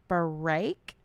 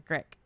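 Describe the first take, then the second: First: The word is said slowly and carefully. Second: The word is said quickly and comes out slurred. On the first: The speaker calls it right. "I have to say it that slow" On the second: The speaker calls it wrong. "otherwise it turns into grek"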